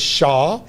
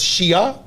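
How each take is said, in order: First: The name is said like 'shah'. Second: The name is said like 'shee-ah'. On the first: "been pronounced as Shah" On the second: "It has been pronounced as Shia"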